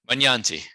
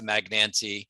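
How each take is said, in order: First: The name is said with Italian pronunciation. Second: The name is said with American pronunciation. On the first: "that's the original Italian pronunciation" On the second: "You'll hear Americanized"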